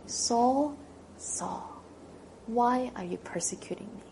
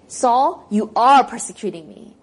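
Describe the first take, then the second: First: Compassionate call fading to a whisper; gentle rebuke. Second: Loud, blunt accusation; accusing. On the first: Acted. Jesus gently rebuking Saul, compassionate hush. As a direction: call him tenderly, then hush. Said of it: "in a tone of compassion and gentle rebuke". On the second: Shown as a demonstration. Pastor showing how Jesus did not speak, loud accusation. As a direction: throw the charge at him. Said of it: "He doesn't say".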